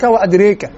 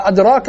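First: وأدريك with the long aa tilted to ee; imala. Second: أدراك with an open long aa; without imala. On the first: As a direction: tilt the vowel in وأدريك, "adreek". (نطق وأدريك بالإمالة) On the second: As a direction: keep أدراك open, "adraak". (نطق أدراك بالفتح دون إمالة) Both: Shown as a demonstration. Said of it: "بين الإمالة وعدم الإمالة".

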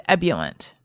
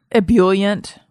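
First: "ebullient" said EB-yuh-lent; "ebullient" starting on a strong EB; mistaken pronunciation. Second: "ebullient" said ih-BULL-yent; "ebullient" with BULL in the middle; correct pronunciation. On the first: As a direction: stress the first syllable of "ebullient". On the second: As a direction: stress the second syllable of "ebullient". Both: Shown as a demonstration. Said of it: "I thought it was ebullient".

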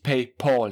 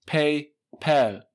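First: "PayPal" said with the ending "pol", a dark o like German "Paul"; wrong pronunciation. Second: "PayPal" said with the ending "pel", short e as in Englisch "pal"; correct pronunciation. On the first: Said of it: "es heißt ... nicht PayPal". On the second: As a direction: stress "PayPal" with a crisp "pel" at the end. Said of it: "nicht PayPal". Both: Shown as a demonstration.

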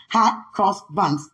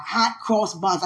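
First: "Hot cross buns." drawn out slowly, word by word. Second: Said in the usual way. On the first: Shown as a demonstration. Sounding out "Hot cross buns." slowly to get it right. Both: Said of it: "I gotta say it slow".

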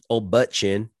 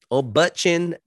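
First: Said in the usual way. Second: High, mocking nickname; sing-song the jab up high. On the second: Shown as a demonstration. Mocking the actor to his viewers, pitched high.

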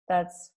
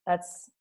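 No difference in how they are said.

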